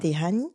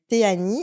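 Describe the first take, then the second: First: The h in the middle is pronounced. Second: The h in the middle is silent.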